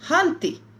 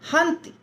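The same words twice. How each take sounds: First: The final vowel is drawn out long. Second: The final vowel is short and quick. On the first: The speaker calls it wrong. "हंती नहीं" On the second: The speaker calls it right. "हंती ऐसे"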